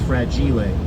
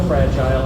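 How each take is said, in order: First: The word is pronounced in an Italian way. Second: The word is pronounced in an English way. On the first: "but that's Italian" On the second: "I pronounce that word that way"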